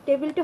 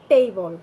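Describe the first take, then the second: First: টেবিলটা with short "te-bil"; short unglided e in টেবিলটা; usual "table". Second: টেবল as "tey-bol"; long "ey" in টেবল; corrected "table". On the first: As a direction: say টেবিলটা with no glide. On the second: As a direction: glide the first vowel of টেবল. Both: Shown as a demonstration. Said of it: "টেবিলটা হবে টেবল".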